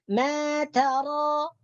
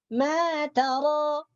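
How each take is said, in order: No difference in how they are said.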